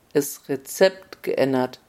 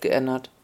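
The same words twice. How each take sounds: First: Slow, softer, dry echo of the words; the king savours the phrase with irony; a lightly voiced king's ironic echo; wry repeat. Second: Said in the usual way. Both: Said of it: "sagte König".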